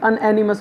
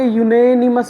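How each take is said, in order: First: The word begins with a plain vowel sound. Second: The word begins with a y sound. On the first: The speaker calls it wrong. "ना कि अनएनिमस बोलेंगे" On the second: The speaker calls it right. "यूनेनिमस बोलेंगे"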